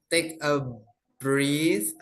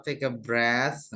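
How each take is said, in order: First: "breath" said like "brit", short i, hard t; "breath" pronounced wrong as "brit", quoting her; imitating mispronunciation. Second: "breath" said properly as "breth", not "brit"; correct pronunciation. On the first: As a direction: mimic the learner's "take a brit". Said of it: "Ketika tadi Sis Driani bilang". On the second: Shown as a demonstration. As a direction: model the right "breath", slowly. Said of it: "itu bacanya adalah breath ya".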